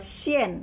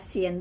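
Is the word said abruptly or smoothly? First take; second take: abruptly; smoothly. First: The word is said abruptly, with a sharp drop. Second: The word is said smoothly, without a sharp drop. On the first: It means thread. "kalau digentakin berarti benang" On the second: It means salty. "sien tuh asin"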